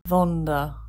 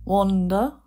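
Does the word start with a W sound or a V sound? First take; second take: v sound; w sound. First: The word begins with a V sound. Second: The word begins with a W sound. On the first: "Or the W may be mispronounced"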